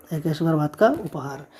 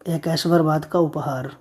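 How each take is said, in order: First: Said in the usual way. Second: Slow dictation. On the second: Shown as a demonstration. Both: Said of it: "मुहादिनी का मतलब क्या होता है?".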